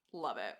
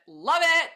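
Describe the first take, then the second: First: Said in the usual way. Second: Love it! shouted high and loud; loud, delighted love it!; excited shout. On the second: Shown as a demonstration. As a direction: burst out with love it!.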